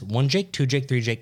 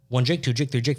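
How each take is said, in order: First: The counting is at a slower pace. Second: The counting is at a faster pace. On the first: Only a few are being counted. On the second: Many are being counted.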